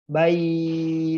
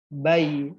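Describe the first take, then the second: First: The vowel is drawn out long. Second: The vowel is kept short and soft. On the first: The speaker calls it wrong. "Contoh dipanjang-panjangkan seperti ini" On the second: The speaker calls it right. "jadi dibacanya bayi. Nah, nah nggak boleh dipanjang-panjangkan"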